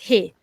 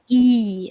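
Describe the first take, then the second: First: The word starts with a clear h sound. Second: The word starts with no h sound. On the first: "it's he" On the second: "they don't say H"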